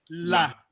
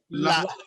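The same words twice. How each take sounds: First: The low vowel ends smoothly without a glottal stop. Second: The low vowel is cut off by a glottal stop. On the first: "le ton bas, c'était A" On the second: "si je mets un coup de glotte"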